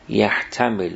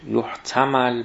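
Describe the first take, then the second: First: It begins with 'ya' and ends in 'mil'. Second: It begins with 'yu' and ends in 'mal'. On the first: The verb is read as active: someone considers it possible. "یحتمل معلوم باشه و ضمیر به مکلف برگرده" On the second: The verb is read as passive: it is possible. "یحتمل مجهول"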